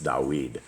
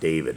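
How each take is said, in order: First: The middle consonant is a w sound. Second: The middle consonant is a v sound. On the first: The speaker calls it right. "It's Dawid. ... the actual the right pronunciation" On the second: The speaker calls it wrong. "is not David"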